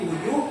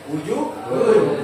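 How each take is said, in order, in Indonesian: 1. Bunyi -un di akhir dihilangkan. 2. Kata itu berakhir dengan bunyi -un yang jelas. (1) "hunnya hilang" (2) "bukan wujuhun lagi"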